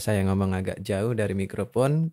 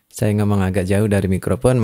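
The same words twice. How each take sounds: First: The distant voice is faint and weakly picked up. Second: The distant voice is still clearly picked up. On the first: "Ini kalau tanpa kompresor. ... kurang tertangkap" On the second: "kita mainkan kompresor di jam tiga. ... masih tertangkap"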